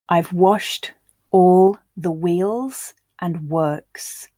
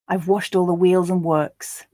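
First: The line is said slowly. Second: The line is said at a natural pace. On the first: "I'll read it first slowly for you to grasp the words" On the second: "Then I'll read it at a more natural pace"

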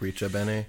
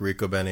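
First: The double C is said as a ch sound. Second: The double C is said as a k sound. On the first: "a cha" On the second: "a K"

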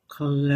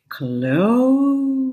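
First: The name is said at normal speed. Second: The name is said slowly and drawn out.

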